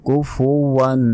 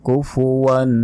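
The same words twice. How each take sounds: Both takes have the same delivery.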